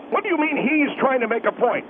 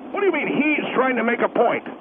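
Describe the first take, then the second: No difference in how they are said.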